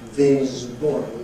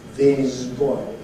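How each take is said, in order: First: The s in this becomes voiced. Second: The s in this becomes voiced.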